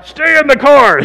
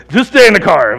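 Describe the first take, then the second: First: Loud, high warning to himself; imitating his own warning loudly; mock warning shout. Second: 1 mock warning. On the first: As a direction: bark the warning at yourself.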